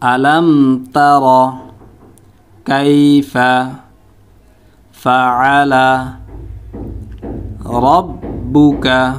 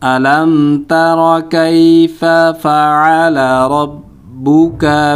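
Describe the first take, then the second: First: Each whole word is said with breaks between. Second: All the words run together slowly without breaks. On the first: "এখন উচ্চারণ করব শব্দ শব্দ।" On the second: "এখন পুরো একসাথে উচ্চারণ করব। প্রথমে একটু স্লোভাবে"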